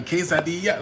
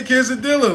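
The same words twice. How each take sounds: First: "quesadilla" said the Spanish way, "kay-sah-DEE-ya", with no L sound; mock Spanish pronunciation. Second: "quesadilla" said the American way, "kay-suh-DIL-uh", with a clear L; American pronunciation. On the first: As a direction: imitate how others expect him to say "quesadilla", Spanish-style with a Y sound for the L. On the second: Shown as a demonstration. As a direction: show how his people really say "quesadilla", with the L pronounced. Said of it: "we say quesadilla".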